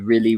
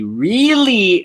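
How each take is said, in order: First: The word is said plainly, without extra emphasis. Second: The word is said with strong emphasis.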